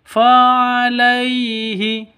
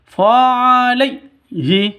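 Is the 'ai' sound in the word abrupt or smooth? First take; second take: smooth; abrupt. First: The 'ai' sound is soft and smooth. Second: The 'ai' sound is cut off abruptly. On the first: The speaker calls it right. "yang betul lemes, lentur, jelas" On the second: The speaker calls it wrong. "tidak boleh disentak. Fa'alaihi itu salah ya"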